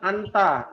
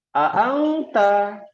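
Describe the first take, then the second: First: The n is short and plain. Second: The n is drawn out as a nasal hum.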